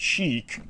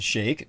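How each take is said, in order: First: The word sounds like the fashion word 'chic'. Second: The word does not sound like 'chic'. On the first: The speaker calls it wrong. "not Chic, um, like C H I C, the fashion statement" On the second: The speaker calls it right. "you actually pronounce it as Sheikh"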